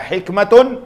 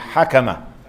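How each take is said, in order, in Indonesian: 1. Suku kata pertama memiliki vokal i. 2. Suku kata pertama memiliki vokal a. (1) "bukan hikmatun" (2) "dibacakan baris atas ha dan kaf"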